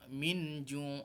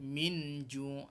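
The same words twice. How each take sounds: Both takes have the same delivery.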